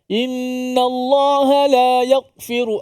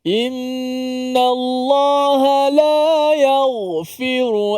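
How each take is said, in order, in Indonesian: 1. Bunyi gh terpotong secara tiba-tiba. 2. Bunyi gh mengalir terus tanpa putus. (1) "dia putuskan suara juga ... tu tak betul" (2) "suara berjalan"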